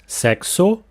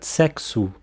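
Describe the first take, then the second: First: The final vowel sounds like O. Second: The final vowel sounds like U. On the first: The speaker calls it wrong. "So not sexo" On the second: The speaker calls it right. "the vowel O in word final position will almost always sound like U"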